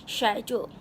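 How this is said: It is said with a British pronunciation. "the correct pronunciation should be schedule"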